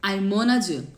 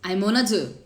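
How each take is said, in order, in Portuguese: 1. As palavras se juntam num bloco só, ligado. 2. As palavras se juntam num bloco só, ligado.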